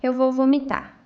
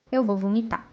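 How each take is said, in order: First: Louder, gagging alarm; nauseous, louder. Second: Queasy, about to gag; nauseous. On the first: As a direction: near retching, louder and urgent. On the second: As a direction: say it like you might throw up. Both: Real, not acted.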